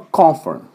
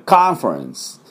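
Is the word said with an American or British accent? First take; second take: British; American. First: The first vowel is a rounded British 'o'. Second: The first vowel is an open American 'ah'. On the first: "当然イギリス人はコンファレンス" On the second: "アメリカ人はカンファレンス"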